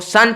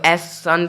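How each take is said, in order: First: The word starts directly with 's'. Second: An 'es' sound comes before the word. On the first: The speaker calls it right. "सन पढ़ते हो" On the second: The speaker calls it wrong. "एस सन नहीं पढ़ते हो"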